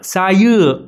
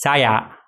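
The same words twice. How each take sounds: First: Saya with a rise then a fall across the word; correct pronunciation. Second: Saya said without the rise and fall, as foreigners say it; the learner's mistaken saya, level and dropped; wrong way to say saya; wrong pronunciation. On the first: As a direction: show the right saya, up then down. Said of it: "هناك نوع من الطلوع والنزول في هذه الكلمة". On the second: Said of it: "وهذا هو النطق الغلط". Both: Shown as a demonstration.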